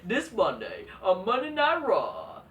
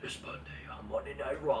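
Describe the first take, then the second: First: It is said in a plain, ordinary announcer voice. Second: It is said in a deep, mysterious announcer voice. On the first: This is how commercials sound now. The speaker calls it wrong. "now the voice like" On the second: This is how commercials used to sound. The speaker calls it right. "like the mysterious fucking voice"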